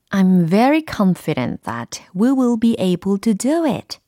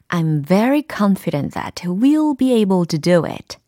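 First: "We will" is said as two full words. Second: "We will" is contracted to "we'll". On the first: "첫 번째 문장에서는 we will be able to라고 했고요" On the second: "we'll be able to 이렇게 축약형으로도 발음을 해드렸습니다"

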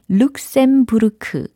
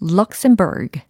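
First: It is said with Korean-style syllables and vowels. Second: It is said with English-style sounds and stress. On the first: The speaker calls it wrong. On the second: The speaker calls it right.

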